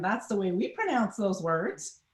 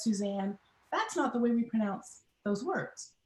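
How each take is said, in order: First: Put-on puzzled child's thought, rising at the end; mildly acted bewilderment, turning the statement into a question; confused. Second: Softer, measured teacher's correction, falling at the end; quietly voiced teacher stopping a pupil, "not" firmly placed; retold classroom correction, closing on a fall; correcting teacher. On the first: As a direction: think it aloud, baffled, lifting on "words". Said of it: "you can imagine the confusion on my face because I'm thinking". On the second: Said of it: "my teacher stops me, and she says".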